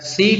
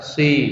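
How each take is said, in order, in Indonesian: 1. Huruf s-nya tipis, tanpa kesan tebal yang berat. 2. Huruf s-nya tebal dan berat, seperti s tafkhim. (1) "Seharusnya tipis" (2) "seperti shod karena tebal"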